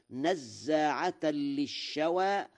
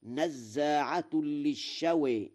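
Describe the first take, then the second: First: -an ending on نزاعة, drawn-out recitation; accusative ending. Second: -un on نزاعة, للشوى tilted toward shawe; nominative ending. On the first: Teacher quotes the verse before Warsh's, نزاعة ending in -an. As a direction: recite نزاعة slowly as nazzaa'atan. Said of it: "قرأ ورش". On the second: Teacher shows Warsh's reading, نزاعة ending in -un. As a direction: recite نزاعة slowly as nazzaa'atun. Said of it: "بالرفع على أنه خبر لإن". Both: Shown as a demonstration.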